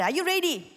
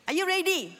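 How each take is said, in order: First: Raised, eager question to the crowd; rallying call. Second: Higher still, urging the crowd; rallying call, pushed harder. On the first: Pastor rousing the church before reading, loud and eager. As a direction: fire up the congregation. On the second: Pastor asking the church again, higher and louder. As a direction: ask again with more push. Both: Real, not acted. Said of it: "come on, let's read aloud".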